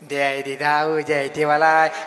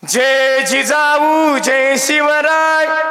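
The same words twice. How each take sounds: First: The slogan is said weakly, without force. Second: The slogan is shouted loudly and forcefully. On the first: The speaker calls it wrong. "ते कसं म्हणाले पाठीमाग दोघं ते काय" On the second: The speaker calls it right. "मर्दानी जय घोष झाला पाहिजे"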